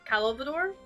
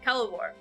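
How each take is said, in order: First: The name is said with a d sound. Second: The name is said without a d sound. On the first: The speaker calls it wrong. "I'm saying it with a D" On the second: The speaker calls it right. "No D added"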